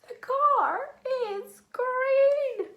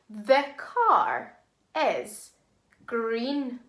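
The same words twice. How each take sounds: First: It is said in a funny voice. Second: It is said in a normal voice.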